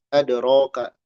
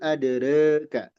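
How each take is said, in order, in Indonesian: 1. Vokal setelah r adalah a terbuka. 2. Vokal setelah r berada di antara a dan e. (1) "dibacanya alif"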